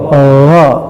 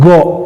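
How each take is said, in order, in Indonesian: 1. Huruf ini diucapkan dengan bunyi agak terbuka. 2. Huruf ini diucapkan dengan bunyi tertutup dan membulat. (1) "bukan tertutup tapi agak buka gha" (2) "go tertutup"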